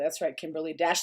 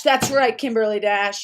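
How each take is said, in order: First: Said in the usual way. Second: Loud, punchy affirmation; ringing, emphatic endorsement of a viewer; emphatic agreement. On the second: Real, not acted. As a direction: say it back much louder, with force.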